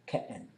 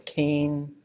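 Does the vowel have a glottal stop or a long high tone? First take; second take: glottal stop; high tone. First: The vowel is broken by a glottal stop. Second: The vowel is long with a high tone. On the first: This is how another dialect says it. "In tanta, you would expect them to say ke'en" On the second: This is how our dialect says it. "We say keen. That's what replaced that sound"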